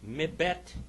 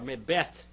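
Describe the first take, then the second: First: The word ends with a hard T sound. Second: The word ends with a soft TH sound. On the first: The speaker calls it wrong. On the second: The speaker calls it right.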